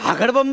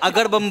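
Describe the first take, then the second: First: The word begins with an h sound. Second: The word begins directly with a vowel. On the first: The speaker calls it wrong. "ते हगडबंब नाही" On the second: The speaker calls it right. "अगडबंब असेल"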